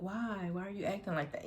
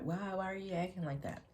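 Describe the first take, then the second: First: Higher, puzzled mock whine; weird pleading voice. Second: Higher, softer mock whine; weird pleading voice. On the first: Ex at the door, asking why in a lightly mocked whine. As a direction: mimic his odd pushy question lightly. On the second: Ex at the door, pleading in a lightly mocked whine. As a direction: repeat his strange question, half-mocking. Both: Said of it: "You know, just weird".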